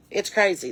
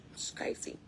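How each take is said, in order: First: Said in the usual way. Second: Hushed, voiceless aside; whisper. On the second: Real, not acted. Marvelling to listeners about the chickens, whispered. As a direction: drop to a whisper in disbelief. Hushed repeat of own remark.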